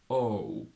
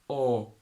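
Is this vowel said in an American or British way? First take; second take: American; American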